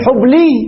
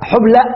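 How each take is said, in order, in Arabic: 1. تنتهي الكلمة بصوت ياء. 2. تنتهي الكلمة بهمزة وقف. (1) "قلبنا ماذا ياء" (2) "قلبنا ماذا همزة"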